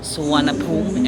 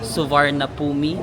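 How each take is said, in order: First: It is said in its shorter Thai pronunciation. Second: It is read out letter by letter as spelled. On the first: "you pronounce it as" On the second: "yung spelling niya is"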